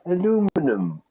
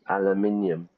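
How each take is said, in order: First: It is said the American way. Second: It is said the British and Irish way. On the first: The speaker calls it wrong. "Americans will say aluminum" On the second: The speaker calls it right. "it's aluminium, everybody"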